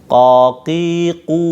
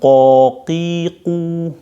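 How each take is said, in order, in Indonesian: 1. Suku kata ini diucapkan dengan bibir tidak membulat. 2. Suku kata ini diucapkan dengan bibir membulat dan dimonyongkan. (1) "bibirnya tidak dimonyongkan"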